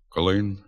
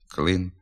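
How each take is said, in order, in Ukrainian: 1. «Л» дуже тверде, сильно відтягнуте назад. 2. «Л» звичайне, не відтягнуте назад. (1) "звук «л» перед «е» та «и» вимовляється дуже твердо" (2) "Треба вимовляти"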